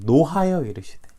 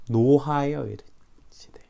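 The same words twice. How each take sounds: First: Said in the usual way. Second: "노하여 이르시되" whispered slowly. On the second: Shown as a demonstration. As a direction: linger on "노하여" in a hushed whisper. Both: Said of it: "뭐라고 말씀하세요?".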